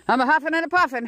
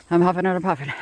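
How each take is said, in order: First: Higher, faster, bouncy 'huffing and a puffing'; playful sing-song huffing. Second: Said in the usual way. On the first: Shown as a demonstration. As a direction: toss off 'a huffing and a puffing' like a nursery rhyme.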